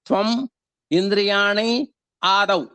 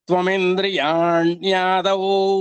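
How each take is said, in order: First: The three words are said separately. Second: The three words are joined into one.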